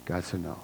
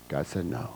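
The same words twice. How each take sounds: First: GOD leaned on, still hushed; stress on God. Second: A soft, hushed statement that God said no. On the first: Preacher repeating the verse, stressing God. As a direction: press the word God, quietly. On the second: Preacher to congregation, hushed and solemn. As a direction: let the no land gently and quietly. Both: Shown as a demonstration.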